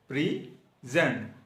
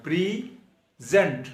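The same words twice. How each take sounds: First: Said in the usual way. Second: present said slowly with a heavy push on the first syllable pre; stress on PRE. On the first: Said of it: "P R E के ऊपर stress देनी है". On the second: Shown as a demonstration. Teacher showing students the stress in present, slow heavy first syllable. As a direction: lean hard on pre in present, drawn out. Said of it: "ज़्यादा जोर देना है".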